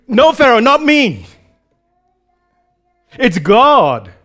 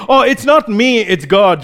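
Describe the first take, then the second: First: Raised, emphatic "not me", weighty "God"; firmly disclaim all credit, landing hard on God; emphatic denial. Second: Mock-modest, pitched up on "not me"; false humility. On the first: Retold or imitated. Joseph emphatically refusing credit before Pharaoh, emphatic. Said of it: "emphatically says". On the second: Someone pretending humility when praised, mock modesty. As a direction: lightly imitate someone deflecting praise. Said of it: "some kind of false humility".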